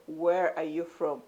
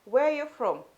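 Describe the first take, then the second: First: Slow, word-by-word question; insistent re-asking. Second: High, louder questioning voice; curious stranger. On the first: Stranger rejecting the newcomer's answer, insistent and slow. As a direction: spell the question out slowly, pressing the point. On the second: Stranger asking the newcomer's origins, curious and high. Stranger asks where she is from. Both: Acted.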